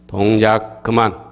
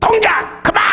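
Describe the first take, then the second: First: The command is said in a mild, relaxed way. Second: The command is said forcefully and angrily. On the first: There is good news to share. "좋은 일이 있고 알려줄 때에는요" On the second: Someone is furious and trouble is coming. "화가 나가지고 ... 그 정도로 강하게 합니다"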